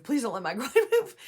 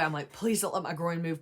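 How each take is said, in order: First: Higher, louder plea breaking into a laugh; laughing mock plea. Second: Said in the usual way. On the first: Therapist imitates anxious client's plea, laughing. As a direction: beg it with a laugh.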